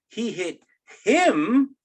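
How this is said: The word him is stressed. Of all people, that particular person was hit. "if we over enunciate him"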